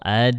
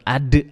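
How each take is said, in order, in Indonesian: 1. Pantulan konsonan akhir itu ringan dan pendek. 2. Pantulan konsonan akhir itu berat dan kuat. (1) "itu ringan tuh" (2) "Itu keberatan"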